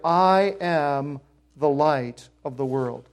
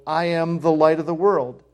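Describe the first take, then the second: First: "I am the light of the world." drawn out slowly, weight on "I"; slow emphatic quote. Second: Said in the usual way. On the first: Shown as a demonstration. Preacher stressing Jesus's claim to the congregation, slow and weighty. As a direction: lean hard on "I" and let each word land slowly. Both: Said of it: "But here".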